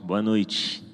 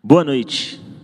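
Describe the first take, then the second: First: It is said more softly. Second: It is said rather loudly.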